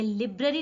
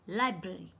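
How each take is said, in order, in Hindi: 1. पहला अक्षर 'lib' जैसा सुनाई देता है। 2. पहला अक्षर 'lie' जैसा सुनाई देता है। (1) "ये लिब्रेरी नहीं है"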